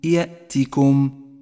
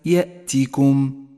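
The two takes are said the same way.

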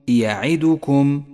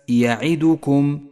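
No difference in how they are said.

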